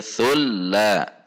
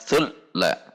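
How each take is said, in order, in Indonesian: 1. Huruf l ganda memiliki panjang yang sedang dan merata. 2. Huruf l ganda dipotong dengan cepat. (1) "Lam tasydid harus bainiyah"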